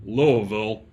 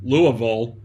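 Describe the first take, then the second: The two takes are said the same way.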